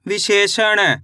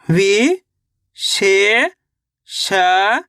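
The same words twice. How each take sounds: First: Said in the usual way. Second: विशेषण stretched into slow syllables. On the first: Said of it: "read whole". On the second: Shown as a demonstration. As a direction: draw out विशेषण. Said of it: "spelled out then read". (धीरे-धीरे अक्षरशः)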